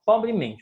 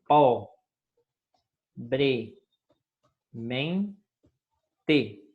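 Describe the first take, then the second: First: Said in the usual way. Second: "po-bre-men-te" very slow, a long pause after each syllable. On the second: Shown as a demonstration. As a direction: split "po-bre-men-te" into four separate, drawn-out syllables. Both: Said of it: "separe as, as palavras".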